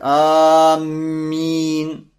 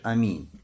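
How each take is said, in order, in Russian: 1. Звук «m» удвоенный и протяжный. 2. Звук «m» одиночный и краткий. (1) "как некоторые говорят, аминь, удваивая букву мим" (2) "просто говоришь аминь"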